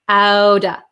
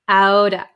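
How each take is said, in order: First: The T is flapped and the V is dropped. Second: The T is flapped and the V is dropped.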